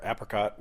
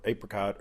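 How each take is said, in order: First: "apricot" starting like "apple"; short flat-A opening "apricot". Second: "apricot" starting like "ape"; long A opening "apricot". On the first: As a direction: say "apricot" as AP-ri-cot. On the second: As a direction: say "apricot" as AY-pri-cot. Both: Shown as a demonstration. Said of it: "whichever side of that fence you wanna be on".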